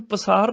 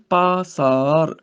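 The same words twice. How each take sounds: First: ਪਸਾਰ with a short first vowel; wrong pronunciation demo. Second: ਪਾਸਾਰ with a long, drawn-out "paa"; correct pronunciation demo. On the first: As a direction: say ਪਸਾਰ as "pasaar", quick "pa". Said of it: "ਇਹਨੂੰ ਪਸਾਰ ਨਹੀਂ ਬੋਲਣਾ". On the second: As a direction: say ਪਾਸਾਰ as "paa-saar", both vowels long. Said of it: "ਤੱਪੇ ਨੂੰ ਕੰਨਾ ਲੱਗਿਆ". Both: Shown as a demonstration.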